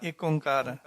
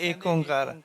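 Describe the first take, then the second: Both takes have the same delivery.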